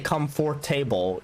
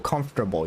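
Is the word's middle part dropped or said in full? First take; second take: full; dropped. First: Every syllable, including the middle, is pronounced. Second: The middle part of the word is dropped. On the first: The speaker calls it wrong. "you don't say comfortable" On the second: The speaker calls it right. "You drop like the whole middle part"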